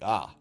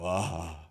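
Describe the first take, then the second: First: It sounds like a sudden realization. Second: It sounds like awed amazement.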